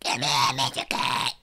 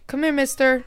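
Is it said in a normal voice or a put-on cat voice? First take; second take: cat voice; normal voice. First: It is said in a put-on cat voice. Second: It is said in a normal voice.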